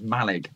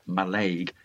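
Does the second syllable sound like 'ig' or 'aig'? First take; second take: ig; aig. First: The second syllable is a short 'ig' sound. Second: The second syllable is a long 'aig' sound. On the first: This is how the locals say the name. The speaker calls it right. "And that is Malig" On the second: This is how outsiders say the name. The speaker calls it wrong. "not Malaig"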